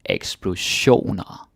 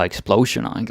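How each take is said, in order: First: The stress falls on the ion syllable. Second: The stress falls before the ion syllable. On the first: The speaker calls it right. "Stress on the ion" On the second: The speaker calls it wrong. "you might be tempted to say something like explosioner or explosioner, like in English, but no"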